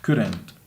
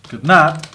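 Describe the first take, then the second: First: The words are run together into one contracted word. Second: Both words are said fully and separately. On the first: The speaker sounds less formal. "Si uso la forma eh, contraída, lo que estoy haciendo es sonando un poco menos formal" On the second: The speaker sounds more formal. "Si uso la forma larga, estoy siendo más formal"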